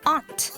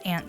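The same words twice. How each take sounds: First: Pronounced the southern United States way. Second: Pronounced the northern United States way. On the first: "in southern United States and some parts of the East Coast, a lot of people pronounce it as" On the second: "In northern United States, most people pronounce it as"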